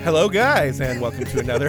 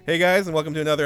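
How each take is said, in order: First: It is said in a Mrs. Doubtfire voice. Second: It is said in his normal voice.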